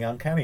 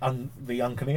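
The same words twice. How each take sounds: First: The stress falls on the usual syllable. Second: The stress falls on an unusual syllable. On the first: This is the standard title. "Rather than" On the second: This is the group's playful nickname. "Just put the wrong emphasis on the incorrect syllables"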